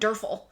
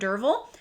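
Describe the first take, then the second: First: The name is said as Durfel. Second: The name is said as Dervil. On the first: The speaker calls it wrong. "I called him Durfel" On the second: The speaker calls it right. "until Alan sent me a message calling him Dervil"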